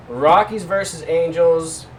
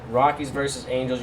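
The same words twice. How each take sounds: First: Slow, loud and high matchup call; hype announcer. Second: Said in the usual way. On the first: Acted. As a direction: announce it like a ring intro.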